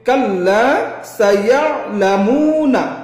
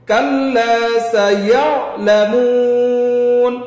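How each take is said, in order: First: The phrase ends with a final short a vowel. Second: The phrase ends on an n sound, vowel dropped. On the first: The reading continues without stopping. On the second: The reader stops at this word.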